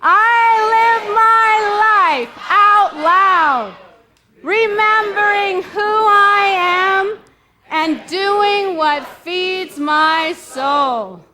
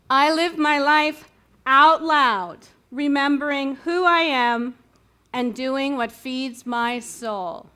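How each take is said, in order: First: It is said very loudly. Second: It is said at a normal volume.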